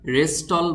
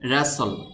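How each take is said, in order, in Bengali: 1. মাঝখানে 't' ধ্বনিটি উচ্চারণ করা হয়। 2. মাঝখানে কোনো 't' ধ্বনি উচ্চারণ করা হয় না। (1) "রেস্টল বললে হবে না" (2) "শব্দটির সঠিক উচ্চারণ হবে র্যাসল"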